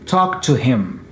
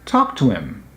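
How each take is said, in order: First: The h in him is pronounced. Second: The h in him is dropped. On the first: "that's okay" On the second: "they cut out this H for the word him"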